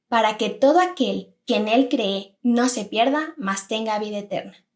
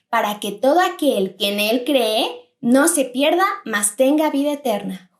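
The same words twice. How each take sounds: First: It is said at normal volume. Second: It is said in a loud voice.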